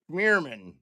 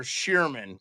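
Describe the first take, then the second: First: Schmierman said with a Schm- start, unsure of the name; unsure Schmierman, hesitant guess at a viewer's name; first try at the name. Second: Shearman said with a plain Sh- start, as a correction; Shearman, fixing the name; corrected name. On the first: Streamer guessing viewer Todd's surname, unsure Schmierman. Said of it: "I hope I said that right". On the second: Streamer correcting viewer Todd's surname, apologetic Shearman. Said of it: "Sorry, Todd Shearman". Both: Real, not acted.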